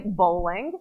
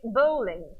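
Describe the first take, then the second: First: Said in the usual way. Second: Bowling with a light Israeli accent; half-successful Israeli accent on bowling; attempted Israeli accent. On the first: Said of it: "if you wanna say bowling". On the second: Shown as a demonstration. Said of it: "I can't even say it in an Israeli accent".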